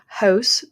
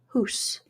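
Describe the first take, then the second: First: The vowel is a gliding 'ow' sound. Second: The vowel is a pure 'oo' sound. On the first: "house becomes hoose" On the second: "becomes hoose"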